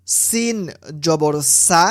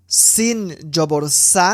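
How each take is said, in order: Both takes have the same delivery.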